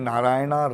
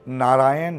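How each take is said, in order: First: The name ends with an added long 'a' vowel. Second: The name ends on the consonant 'n'. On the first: The speaker calls it wrong. "ये नारायणा रामा नहीं है" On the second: The speaker calls it right. "नारायण हैं"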